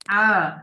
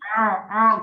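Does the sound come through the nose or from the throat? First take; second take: throat; nose. First: The sound comes from the throat, not nasal. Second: The sound goes through the nose, nasal. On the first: The speaker calls it right. "saya contohin bacanya A gitu ya" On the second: The speaker calls it wrong. "masuk ke rongga hidung"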